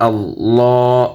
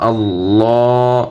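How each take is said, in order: Both takes have the same delivery.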